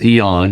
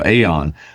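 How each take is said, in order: First: The word starts without an 'ay' sound. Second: The word starts with an 'ay' sound. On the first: The speaker calls it right. "but it's Eon" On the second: The speaker calls it wrong. "there we all have a tendency to go Aeon"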